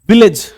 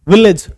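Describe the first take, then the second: No difference in how they are said.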